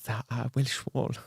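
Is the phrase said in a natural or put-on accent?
put-on. It is said in a put-on foreign accent. The speaker calls it right.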